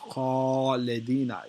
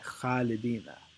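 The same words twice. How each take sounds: First: The first sound is heavy, with the mouth full. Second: The first sound is light, with the mouth less full. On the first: The speaker calls it right. "the correct way to say it is khalidina" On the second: The speaker calls it wrong. "The lighter version, which is the incorrect version"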